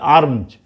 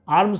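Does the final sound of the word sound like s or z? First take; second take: z; s. First: The word ends with a z sound. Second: The word ends with an s sound. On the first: The speaker calls it right. "इसका उच्चारण जेड जैसा आपको करना पड़ेगा" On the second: The speaker calls it wrong. "आर्म्स नहीं"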